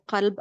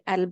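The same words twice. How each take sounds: First: The word starts with a deep q sound. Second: The word starts with a glottal stop. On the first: This is the standard Arabic form. "just like when we say qalb" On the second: This is the Lebanese form. "we say qalb in Lebanese"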